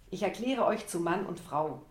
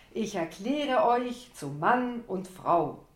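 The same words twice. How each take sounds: First: Said in the usual way. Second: Ich erkläre euch zu Mann und Frau stretched slow, louder and higher; drawn out like a compère. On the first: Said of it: "zog meine Worte in die Länge". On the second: Acted. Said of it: "zog meine Worte in die Länge wie der Conférencier".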